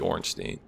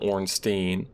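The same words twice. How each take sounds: First: The last syllable sounds like 'stine'. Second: The last syllable sounds like 'steen'. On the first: The speaker calls it right. "but this guy's name is actually Ornstein" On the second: The speaker calls it wrong. "For for a couple of years, I called him Ornstein. A lot of people complained about that"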